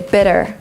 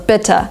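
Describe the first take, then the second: First: It has an American accent with a d-like t. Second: It has a British accent with a clear t. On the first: "In American English they would say" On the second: "in Great Britain they would say still"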